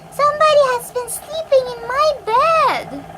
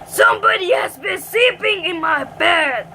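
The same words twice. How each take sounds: First: It is said in a quiet, gentle voice. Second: It is said in a deep, growly voice.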